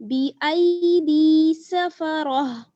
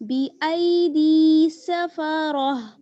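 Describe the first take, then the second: Both takes have the same delivery.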